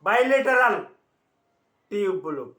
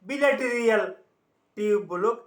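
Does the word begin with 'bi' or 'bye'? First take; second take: bye; bi. First: The word starts with a long 'bye' sound. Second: The word starts with a short 'bi' sound. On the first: The speaker calls it right. "আসলে আমাদের চিকিৎসা বিজ্ঞানের ভাষায়" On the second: The speaker calls it wrong. "অনেকে এটা বিলেটেরিয়াল উচ্চারণ করে"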